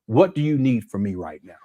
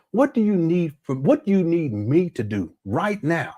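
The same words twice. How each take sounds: First: Said in the usual way. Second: Slowed, every word leaned on; a parent asking in full earnest; slow, weighty question. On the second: Pretend. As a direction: stress "right now" slowly and deliberately. Repeats question for emphasis.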